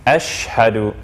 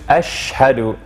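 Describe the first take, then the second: First: The sh runs straight into the h. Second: The sh runs straight into the h.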